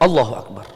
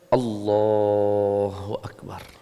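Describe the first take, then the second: First: The phrase is said very quickly. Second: The phrase is said at moderate speed. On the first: The speaker calls it wrong. "tidak boleh terlalu cepat, jangan" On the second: The speaker calls it right. "Simpel saja"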